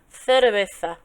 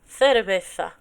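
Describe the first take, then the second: The two takes are said the same way.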